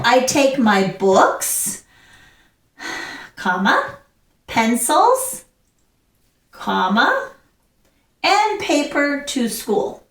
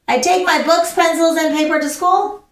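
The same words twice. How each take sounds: First: Breath after BOOKS and PENCILS, both rising, "comma" read out; pausing at each comma. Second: Higher, rushed straight through books, pencils, and paper; run together without pauses. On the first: Teacher showing the class how commas work, pausing at each comma. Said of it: "you're taking a breath". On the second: Teacher showing the class the wrong way, running the list together. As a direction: reel off the whole list in one breath. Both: Shown as a demonstration.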